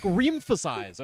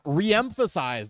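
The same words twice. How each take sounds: First: "re-emphasize" with both E's run together as "reem-phasize"; merged vowels mispronunciation. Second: "re-emphasize" said slowly with "re" and "em" split; separated syllables. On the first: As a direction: misread "re-emphasize" as if it began with "reem". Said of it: "not to pronounce it like". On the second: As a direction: start a new syllable on the second E of "re-emphasize". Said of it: "to emphasize that it starts a different syllable". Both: Shown as a demonstration.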